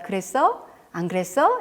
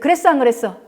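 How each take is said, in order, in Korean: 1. 부드럽고 따뜻한 느낌이에요. 진짜 질문처럼 들려요. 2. 날카롭고 추궁하는 느낌이에요. 꼭 취조하는 것 같아요. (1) "이렇게 묻는 게 훨씬 좋겠죠" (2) "이렇게 따지는 언어"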